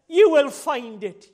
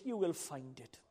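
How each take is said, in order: First: Slow, loud preacher's promise; ringing out from the pulpit; loud proclamation. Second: Low, soft preacher's aside; hushed repeat. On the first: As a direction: declare it forcefully, stretching the words. Preacher proclaims promise, then repeats softly. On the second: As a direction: drop right down and say it quietly. Same promise repeated softly after shout. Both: Acted.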